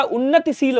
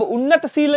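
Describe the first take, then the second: First: उन्नतिशील as "unnati-sil"; correct added vowel. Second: उन्नतशील as "unnat-sil"; wrong, no vowel. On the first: Teacher correcting students, उन्नतिशील as "unnati-sil". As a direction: sound the i after t in उन्नतिशील. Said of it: "होता है". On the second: Teacher showing students the error, उन्नतशील as "unnat-sil". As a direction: join t straight to s in उन्नतशील. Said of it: "नहीं होता". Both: Shown as a demonstration.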